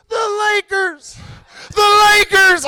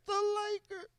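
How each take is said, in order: First: Swelling echo. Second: Tiny high far-off answer; faint echo. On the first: Hidden team answers the comic, echo growing nearer. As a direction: bring the high echo closer each time. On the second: Hidden team answers the comic, faint distant echo. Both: Acted. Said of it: "First pussy echo".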